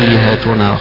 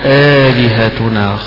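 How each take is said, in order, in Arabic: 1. الهمزة الثانية مسهّلة ومخففة. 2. الهمزة الثانية تُنطق كاملة. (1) "بتسهيل الهمزة الثانية" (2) "هذه قراءة بعض القراء"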